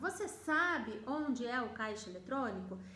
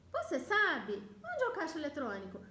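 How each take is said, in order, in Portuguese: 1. Só a primeira metade tem entonação de pergunta. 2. As duas metades têm entonação de pergunta. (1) "Eu mudo a entonação do onde é o caixa eletrônico" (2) "eu estaria fazendo duas perguntas... Não vou fazer isso"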